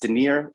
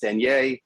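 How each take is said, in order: First: The name is pronounced the American way. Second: The name is pronounced the European way. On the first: This is how it is said in the US. "in the U S" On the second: This is how it is said in Europe. "When I go to Europe"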